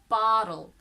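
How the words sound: The T is softened and blended, American style. "But in American, it's bottle. So not, the T is a bit suspended, blended"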